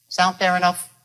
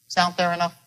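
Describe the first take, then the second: No difference in how they are said.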